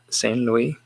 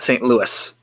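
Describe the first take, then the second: First: It is said a non-American way. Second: It is said the American way. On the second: "Just like we say like uh"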